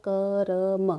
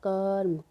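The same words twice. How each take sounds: First: कर्म pulled apart into क, र, म; sounded out. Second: Said in the usual way. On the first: Shown as a demonstration. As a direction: stretch कर्म so the middle र is heard separately. (कर्म को क-र-म अलग करके) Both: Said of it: "कर्म में क्या है".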